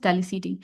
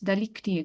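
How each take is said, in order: First: The middle consonant sounds like an s. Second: The middle consonant sounds like a k. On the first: The speaker calls it wrong. "I'm pronouncing things wrong" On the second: The speaker calls it right. "It's delicti actually"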